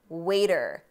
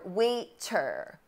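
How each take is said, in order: First: The middle t sounds like a quick D. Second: The middle t is a crisp T sound. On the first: The speaker calls it right. "Americans say ... waiter" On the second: The speaker calls it wrong. "we do not say ... waiter"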